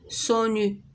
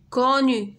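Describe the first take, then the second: First: The first consonant is an S sound. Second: The first consonant is a K sound. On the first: The speaker calls it wrong. "ولا سونو" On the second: The speaker calls it right. "داكوغ حيت عندنا او"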